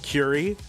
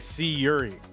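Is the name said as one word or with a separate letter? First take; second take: one word; separate letter. First: The name is said as one smooth word. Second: A separate letter C comes before Yuri. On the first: The speaker calls it right. "But it is Curie" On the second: The speaker calls it wrong. "I used to say C Yuri"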